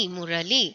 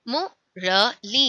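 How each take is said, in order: First: Said in the usual way. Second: मुरली said very slowly, syllables drawn out; slow model word. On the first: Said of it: "repeat at normal pace". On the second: Shown as a demonstration. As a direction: stretch मुरली slowly for the class to copy. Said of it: "model word then repeat". (मुरली को धीरे-धीरे खींचकर)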